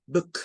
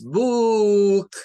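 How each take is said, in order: First: Book short and quick, lax oo; short vowel. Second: Book hugely stretched, high and loud, "boooook"; wrong long vowel. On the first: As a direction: snap book off briefly. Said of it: "Es rápido". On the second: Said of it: "No es book". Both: Shown as a demonstration.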